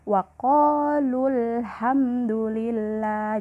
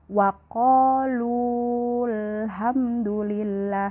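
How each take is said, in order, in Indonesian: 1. Vokal pada 'lu' dibaca pendek. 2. Vokal pada 'lu' dibaca panjang. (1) "Yang benar ... Jadi dia pendek" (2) "Jadi bukan ... itu salah ya"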